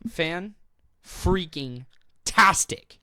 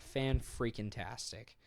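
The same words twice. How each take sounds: First: The phrase is said in a sincere tone. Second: The phrase is said in a sarcastic tone. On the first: The praise is genuinely meant. The speaker calls it right. "That's better" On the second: The praise is not really meant. The speaker calls it wrong. "That sounded sarcastic"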